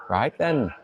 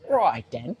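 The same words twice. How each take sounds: First: It is said in a Scottish accent. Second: It is said in an exaggerated British accent. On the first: "I could try some Scottish" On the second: "like the kind of like the silly British accent"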